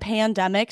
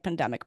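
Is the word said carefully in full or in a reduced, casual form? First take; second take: careful; reduced. First: The word is said carefully with every sound full. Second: The word is said quickly with its sounds reduced. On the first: "pandemic takes a lot more over pronunciation" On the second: "if I'm using it all the time, it becomes like pandemic"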